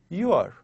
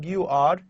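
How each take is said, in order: First: The two words are pushed together. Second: The two words are said separately. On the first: "we push them together" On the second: "rather than saying"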